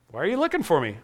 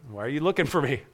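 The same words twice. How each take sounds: First: Said in the usual way. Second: Put-on softer, calm young Jesus; quiet, settled question to his worried parents; calm, profound. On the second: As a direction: ask it gently, without alarm. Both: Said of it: "Calmly, profoundly".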